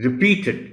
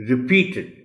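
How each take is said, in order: No difference in how they are said.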